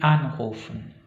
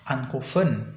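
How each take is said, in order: First: The stress is on the first syllable. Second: The stress is on the last syllable. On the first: The speaker calls it right. "tapi anrufen" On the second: The speaker calls it wrong. "Bukan di akhir juga anrufen"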